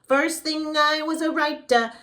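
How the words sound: The sound is bright, high and forward. The speaker calls it right. "making sure that it's here and it has a little bit higher of a cartoon feel to it"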